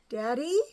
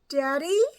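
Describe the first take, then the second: First: It is called softly and hesitantly. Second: It is called more loudly.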